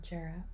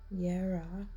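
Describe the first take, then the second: First: The word begins with a J sound. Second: The word begins with a Y sound. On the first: The speaker calls it wrong. "I am pronouncing it wrong" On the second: The speaker calls it right. "Is Yera"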